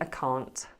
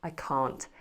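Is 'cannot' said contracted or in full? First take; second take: contracted; contracted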